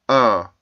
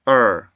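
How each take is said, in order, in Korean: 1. 이 모음은 R 울림 없이 평범해요. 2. 이 모음은 R 울림이 있는 끝소리가 있어요. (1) "어떤 학생들이 발음할 때 보면 ... 이렇게밖에 발음을 못해요" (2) "이렇게 울림 소리가 들어가 있는 게 R 발음의 정확한 소리고요"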